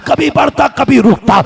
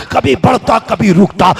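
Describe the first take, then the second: First: कभी बढ़ता कभी रुकता repeated higher for emphasis; second कभी बढ़ता कभी रुकता pitched up; raised repeat. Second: Said in the usual way. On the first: Shown as a demonstration. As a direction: lift the echo higher.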